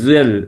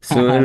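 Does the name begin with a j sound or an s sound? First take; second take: j sound; s sound. First: The name begins with a j sound. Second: The name begins with an s sound. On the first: This is how others say the name. "এস কে বর্গা জয়ের মতো উচ্চারণ করে ওরা" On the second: This is the name's own form. "সোহেলকে"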